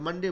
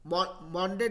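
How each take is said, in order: First: The first vowel is a short 'uh' sound. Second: The first vowel is a full 'aw' sound. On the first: The speaker calls it right. "मंडे बोलते" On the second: The speaker calls it wrong. "मॉन्डे नहीं बोलते"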